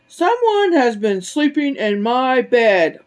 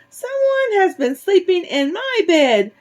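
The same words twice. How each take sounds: First: It is said in a big, deep, loud voice. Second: It is said in a tiny, high, squeaky voice. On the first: The largest bear is speaking. "let me do it in his voice. ... Papa Bear shouted in his great big voice" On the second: The smallest bear is speaking. "Baby Bear squeaked in his tiny little voice"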